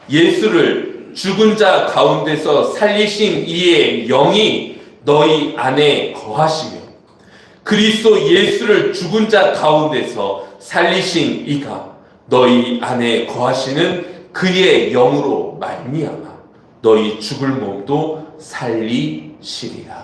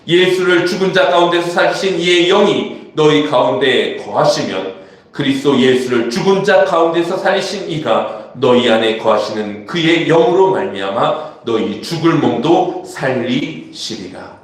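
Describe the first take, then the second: First: It is read slowly. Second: It is read at a normal pace.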